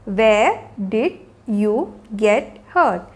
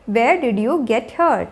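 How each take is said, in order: First: Very slow, every word set apart. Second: Said in the usual way. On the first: Shown as a demonstration. Teacher modelling a question about an injury for learners, word by word. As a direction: pause after each word of the question.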